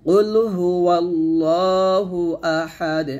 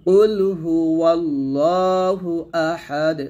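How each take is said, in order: No difference in how they are said.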